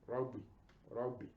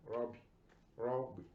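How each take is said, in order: The two takes are said the same way.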